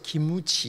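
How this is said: Said as three syllables, ki-mu-chi. "기무치 이렇게 납니다"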